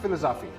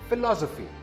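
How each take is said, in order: First: The stress is not on the second syllable. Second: The stress is on the second syllable. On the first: The speaker calls it wrong. "This word is not philosophy" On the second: The speaker calls it right. "The second syllable is stressed"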